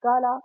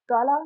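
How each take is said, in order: First: काला said louder with a long held first vowel; the right way: stretch the vowel in काला; correct reading. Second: काला said quickly as a flat short word; the wrong way: काला clipped and plain; wrong reading. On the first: Teacher giving students the correct reading, louder. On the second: Teacher showing students the wrong reading of the word. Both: Shown as a demonstration. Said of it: "काला नहीं पढ़ेंगे".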